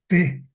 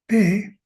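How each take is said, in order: First: "P" dicha con tono bajo. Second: "P" dicha en tono alto, más aguda y fuerte. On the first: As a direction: baja la voz en "P", tono grave. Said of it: "P, es un tono bajo". ("P" en tono bajo) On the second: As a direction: sube la voz en "P", tono agudo. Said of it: "es un tono alto". ("P" en tono alto, más fuerte) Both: Shown as a demonstration.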